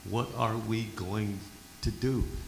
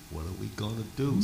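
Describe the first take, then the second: First: It is said at a slower pace. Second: It is said at a quicker pace.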